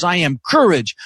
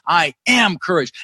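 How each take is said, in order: First: "courage" hit hardest, falling at the end; stress on courage. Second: "am" stretched and punched, "courage" falling after it; slow affirmation with the weight on "am"; stress on am. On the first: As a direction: punch the last word, "courage". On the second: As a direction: lean hard and long on "am". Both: Shown as a demonstration. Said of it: "I'd emphasize different words".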